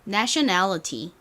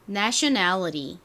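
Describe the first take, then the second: First: The t is pronounced as a clear t sound. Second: The t is flapped like a quick r sound. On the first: "T 발음을 좀 살려서 다시 한번 해볼까요?" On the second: "미국식 발음은 ... 이 t를 티읕으로 발음을 안 하고 이렇게 리을처럼 좀 굴려서 발음을 하는 경우가 굉장히 많아요"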